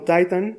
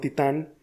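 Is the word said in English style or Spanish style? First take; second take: English style; Spanish style. First: It is said with English-style stress placement. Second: It is said with Spanish-style stress placement. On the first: "Lo único que cambia es la posición del acento" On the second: "como titán también lo es"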